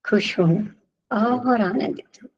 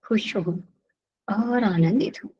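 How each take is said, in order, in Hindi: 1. यह आत्मविश्वास भरी, चमकती और मुस्कुराती हुई लगती है। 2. यह धीमी, दबी हुई और आत्मविश्वासहीन लगती है। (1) "बिल्कुल कॉन्फिडेंस से ... हँसता मुस्कुराता हुआ चेहरा" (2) "गर्दन नीचे झुकी हुई ... बोलने का तरीका गलत है"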